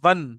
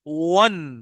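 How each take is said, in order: First: The w is said without rounded lips. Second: The w is said with rounded lips. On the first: The speaker calls it wrong. "वन मत पढ़िएगा" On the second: The speaker calls it right. "मुंह होंठ गोल करके पढ़िएगा"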